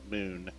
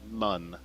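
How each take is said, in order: First: The vowel is a long 'oo' sound. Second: The vowel is a short 'uh' sound.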